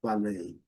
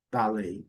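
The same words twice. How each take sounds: First: Ballet as bal-AY; American second-syllable stress. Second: Ballet as BAL-ay; British first-syllable stress. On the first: Teacher says it as in New York, end-stressed demo. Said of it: "Se estiver em Nova York". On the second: Teacher says it as in London, front-stressed demo. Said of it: "se você estiver em Londres". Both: Shown as a demonstration.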